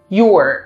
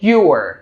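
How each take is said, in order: First: Merged into one short syllable, you're. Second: Merged into one short syllable, you're.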